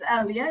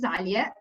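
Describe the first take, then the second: First: The name is said with English pronunciation. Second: The name is said with Arabic pronunciation. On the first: "so it's Alia in English" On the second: "This is how we pronounce it in Arabic"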